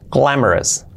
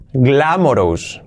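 First: "glamorous" as GLA-mo-res, stressed first; correct pronunciation. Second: "glamorous" read as spelled, gla-mo-ROUS; wrong Spanish-style reading. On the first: Teacher models for learners: "glamorous" with reduced "-es" ending. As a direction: end "glamorous" on a weak "-es". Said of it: "Así". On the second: Teacher shows learners the wrong reading: "glamorous" ending in full "ous". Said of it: "obviamente no es glamorous". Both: Shown as a demonstration.

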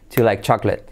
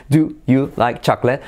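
First: "Do you" as one syllable, "ju", run into "like chocolate"; quick native "Do you like chocolate"; contracted and linked. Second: Imitating a halting "Do, you, like, chocolate"; mock a politician's word-by-word English; lightly mimicked, unlinked foreign speaker; ex-president's halting English. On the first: Shown as a demonstration. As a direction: rattle off "Ju like CHAK-let". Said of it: "A decir". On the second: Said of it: "que hablaba así".

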